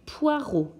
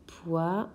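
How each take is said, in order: First: Said in the usual way. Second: "Poireau" split into two syllables with a long pause; découpage syllabique. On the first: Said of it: "c'est le mot poireau". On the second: Shown as a demonstration. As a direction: stretch and lift the first syllable of "Poireau", then wait before the second. (« Poireau » découpé en deux syllabes)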